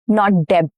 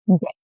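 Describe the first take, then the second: First: The b sound is pronounced. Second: The b sound is silent. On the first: The speaker calls it wrong. "not deb. No b" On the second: The speaker calls it right. "No b"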